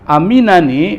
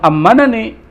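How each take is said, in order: First: It has a single m followed by an i-vowel. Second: It has a doubled m followed by an a-vowel. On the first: The speaker calls it right. "dibacanya bukan ammanani, waman aminani" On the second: The speaker calls it wrong. "di sini bukan ammanani"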